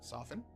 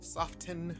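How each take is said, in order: First: The t sound in the middle is silent. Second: The t sound in the middle is pronounced. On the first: This is how the speaker says it. The speaker calls it right. "I know it's not how it's spelled" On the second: Someone else said it and was being extra. The speaker calls it wrong. "I heard somebody say soften this week"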